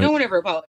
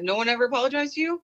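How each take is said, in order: First: Louder retold statement, no questioning rise; matter-of-fact answer. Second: High, quick, rising question; retold disbelief, pitched up into a question; surprised question. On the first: Student answering the teacher, as a firm statement. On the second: Teacher asking a student about apologies, in high surprise.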